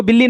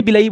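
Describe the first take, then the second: First: बिल्ली said as two syllables, bil-lee; mispronounced villi. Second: बिलई said as three syllables, bi-la-ee; corrected villi pronunciation. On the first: Teacher shows students the wrong term, mispronounced as बिल्ली. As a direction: say बिल्ली with a doubled l, like Hindi for cat. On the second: Teacher corrects the students' term, pronounced carefully as बिलई. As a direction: say बिलई with a single l and an ee ending. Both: Shown as a demonstration. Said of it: "इसको बिल्ली नहीं, बिलई बोलते हैं".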